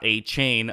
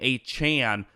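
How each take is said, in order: First: The last syllable has a long 'ay' vowel. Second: The last syllable has a short 'a' vowel. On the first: The speaker calls it wrong. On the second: The speaker calls it right. "that is how you say his name"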